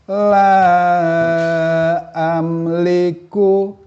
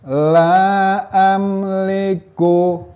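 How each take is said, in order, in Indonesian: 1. Vokal itu dibaca panjang, lima harakat. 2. Vokal itu dibaca singkat, dua harakat. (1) "Kalau kita baca panjang" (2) "Pada bacaan yang lebih pendek atau dua harokat"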